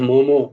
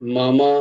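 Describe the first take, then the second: First: Both vowels are a rounded 'o' sound. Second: Both vowels are an open 'a' sound. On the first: The speaker calls it wrong. "মো নয়, মোমো, মোমোর উচ্চারণ হবে না ওরকম" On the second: The speaker calls it right. "মা উচ্চারণ হবে"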